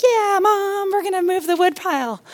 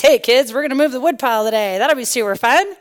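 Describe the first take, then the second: First: Put-on eager little kids. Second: Cheerful mom selling a chore, quick in the middle; rally the little ones lightly; upbeat mom. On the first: Kids answering mom about the wood pile, eager high voices. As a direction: imitate small children going along with mom. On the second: Retold or imitated. Mom pitching the wood pile to her kids, upbeat.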